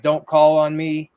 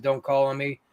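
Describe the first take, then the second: First: Slow, louder sullen "Don't call on me."; mock ghost voice. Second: Said in the usual way. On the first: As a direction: drag it out like a grumpy spirit. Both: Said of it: "saying something pretty negative".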